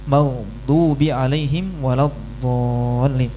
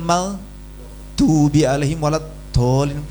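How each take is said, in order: First: The d sound comes from the tongue's side. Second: The d sound is a plain d. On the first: The speaker calls it right. "Padahal harusnya dari samping" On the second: The speaker calls it wrong. "pakai dal"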